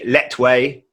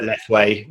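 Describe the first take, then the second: First: The name is said in the native way. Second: The name is said in the Western way. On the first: This is how it is properly said locally. "it's actually Letway" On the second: This is how foreigners say it. "the way the Westerners pronounce it"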